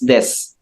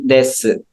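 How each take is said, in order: First: The final u vowel is dropped entirely. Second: The final u vowel is clearly pronounced. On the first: The speaker calls it right. "You pronounce it as des" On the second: The speaker calls it wrong. "we never say desu"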